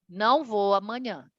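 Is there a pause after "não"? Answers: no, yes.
no. It is said straight through without a pause. He is not going tomorrow. "exemplo um"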